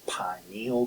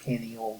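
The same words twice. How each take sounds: First: The first syllable sounds like 'pine'. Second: The first syllable does not sound like 'pine'. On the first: "I was taught to pronounce this pineal gland because of its resemblance to a pine cone" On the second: "some people call it the pineal gland"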